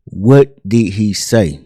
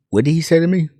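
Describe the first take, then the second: First: Very slow, word-by-word question; insistent demand. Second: Higher-pitched, questioning delivery; taken-aback question. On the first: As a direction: demand an answer, spacing out each word. Marvin insists on an answer. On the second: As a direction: ask it in disbelief, pitch lifted. Marvin questions boys after insult. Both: Retold or imitated.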